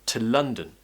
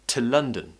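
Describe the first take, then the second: No difference in how they are said.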